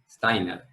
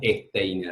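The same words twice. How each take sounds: First: The name begins directly with the s sound. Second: The name begins with an added e vowel. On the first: The speaker calls it right. "tal vez no pongas acento alemán, pero decís Steiner" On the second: The speaker calls it wrong. "agregando una E por todos lados"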